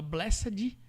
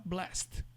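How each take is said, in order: First: "blessed" as BLE-sse-dji; wrong full blessed. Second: "blessed" as one syllable, blest; short blessed. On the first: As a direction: sound every syllable of "blessed", adding final i. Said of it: "Você não vai falar". ("blessed" por extenso, "bléssedji") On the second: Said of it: "Se você pode falar". ("blessed" abreviado, "blest") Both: Shown as a demonstration.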